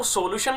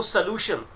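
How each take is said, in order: First: "सॉल्यूशन" with a big o in the first syllable; mispronounced example. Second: "सॉल्यूशन" as suh-LOO-shun; weak first vowel in "सॉल्यूशन", stress the loo. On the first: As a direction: say "सॉल्यूशन" as so-lution, full o. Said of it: "इसको सॉल्यूशन नहीं बोलते students". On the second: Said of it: "stress यू पर है". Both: Shown as a demonstration.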